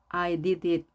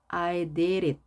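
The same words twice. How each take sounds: First: The d in did is a clear, full d. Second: The d in did is a soft, R-like flap. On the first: "I did it 해도 되지만" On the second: "이렇게 부드럽게 발음하면 훨씬 유창성이 발휘되겠죠"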